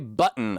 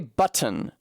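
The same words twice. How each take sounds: First: The middle consonant is a glottal stop. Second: The middle consonant is a clear t sound. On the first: "I have a fucking glottal stop there" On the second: "I don't even say button"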